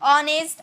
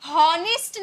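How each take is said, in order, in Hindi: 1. शब्द की शुरुआत स्वर से होती है, इसमें h नहीं है। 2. शब्द की शुरुआत में साफ़ सुनाई देने वाली h की आवाज़ है। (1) "यहाँ भी एच साइलेंट होता है" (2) "हॉनेस्ट नहीं बोलते हैं"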